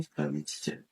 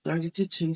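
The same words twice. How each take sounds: First: Barely voiced repeat of the count; whispered count. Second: Said in the usual way. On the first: Shown as a demonstration. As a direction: whisper the count under your breath. Repeats count under breath. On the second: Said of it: "thirty more compressions".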